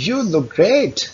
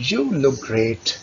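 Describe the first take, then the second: First: "You look great" pitched higher, lively praise; excited praise. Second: Said in the usual way. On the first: Shown as a demonstration. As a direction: sound thrilled for them. (उत्साहित लहजे में तारीफ) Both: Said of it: "आपकी tone जो है ... excited हो".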